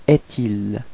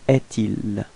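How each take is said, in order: The two takes are said the same way.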